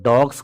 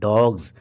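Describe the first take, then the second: First: The word ends with a hissing s sound. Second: The word ends with a buzzing z sound. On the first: The speaker calls it wrong. "ज्यादातर लोग डॉग्स कहते हैं" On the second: The speaker calls it right. "नहीं डॉग्स"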